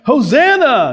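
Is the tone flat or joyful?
joyful. It is said as a joyful shout.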